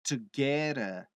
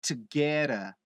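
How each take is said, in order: The two takes are said the same way.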